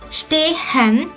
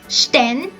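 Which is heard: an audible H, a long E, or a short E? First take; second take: audible H; short E. First: The H is sounded between the vowels. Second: The E is short and clipped. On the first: "It's not pronounced stehen" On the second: "also not like sten"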